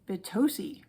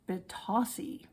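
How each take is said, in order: First: The second vowel sounds like 'oh'. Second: The second vowel sounds like 'ah'. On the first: The speaker calls it wrong. "somebody was saying Batosi" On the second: The speaker calls it right. "it is Batasi"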